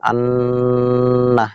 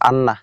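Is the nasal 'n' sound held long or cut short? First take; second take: held; short. First: The nasal sound is held for a moment. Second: The nasal sound is short and not held. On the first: The speaker calls it right. "একটু থেমে চেপে ধরে কিছুক্ষণ পরে ছাড়তে হবে" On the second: The speaker calls it wrong. "এটা আন্না এভাবে বলা যাবে না"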